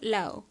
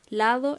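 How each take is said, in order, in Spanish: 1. La d entre vocales se omite. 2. La d entre vocales se pronuncia.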